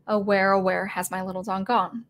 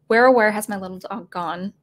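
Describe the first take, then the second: First: Said in the usual way. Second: Spoken with a questioning rise on "gone". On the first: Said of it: "the song". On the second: Shown as a demonstration. Teacher speaking the lyric as a question, rising at the end. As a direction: ask "where has my little dog gone" like a real question. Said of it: "you can say that as a question".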